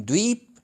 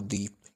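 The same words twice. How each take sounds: First: द्वीप said with a long, stressed ee; द्वीप with a drawn-out ee vowel; long vowel shown. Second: द्वीप said softly with a short i; द्वीप with a quick short i; short vowel shown. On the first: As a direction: stretch the ee in द्वीप. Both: Shown as a demonstration. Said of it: "ध्वनि इस प्रकार निकल रही है".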